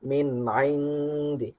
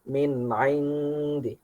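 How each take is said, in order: First: The sound before the nasal stays short. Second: The sound before the nasal stays short.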